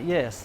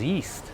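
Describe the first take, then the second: First: The vowel is short, like in 'yes'. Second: The vowel is a long E sound. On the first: The speaker calls it wrong. "not yes" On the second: The speaker calls it right. "Long E sound"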